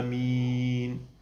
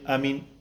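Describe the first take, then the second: First: The vowel is drawn out long. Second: The vowel is kept short. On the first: The speaker calls it right. "dra ut på den, på vokalen" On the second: The speaker calls it wrong. "Alltså inte att man säger amin"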